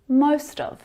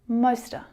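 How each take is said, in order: First: The word 'of' is pronounced in full. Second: The word 'of' shrinks to a schwa.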